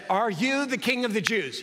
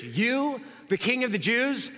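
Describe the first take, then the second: First: Said in the usual way. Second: "You" lifted up and set apart by a pause; "You" comes first with the stress, the rest follows. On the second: Shown as a demonstration. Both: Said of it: "the pronoun you comes before".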